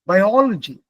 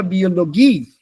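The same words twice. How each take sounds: First: "Biology" in English, stressed on the second syllable; English pronunciation. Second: "Biologie" the German way, stressed on the final GIE; German "Biologie", weight on the last syllable. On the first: Teacher contrasting English with German, English pronunciation. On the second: Teacher showing accent in foreign words, final stress. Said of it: "accent has to be on the last part". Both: Shown as a demonstration.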